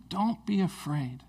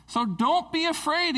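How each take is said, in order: First: Gentle reminder. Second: High, lifted "So don't be afraid"; bright high call of "don't be afraid"; reassuring king's words. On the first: Shown as a demonstration. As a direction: say "don't be afraid" slowly, as a calm reminder. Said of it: "it's so important for us to remember". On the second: Retold or imitated. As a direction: lift "afraid" up high to comfort. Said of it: "he says".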